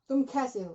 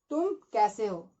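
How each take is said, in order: First: It is said with an American accent. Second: It is said with an Indian accent.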